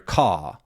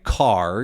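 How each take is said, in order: First: The word ends without any R sound. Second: The word ends with a clear R sound. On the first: "a lot of English accents don't have R sounds" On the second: "instead of saying car"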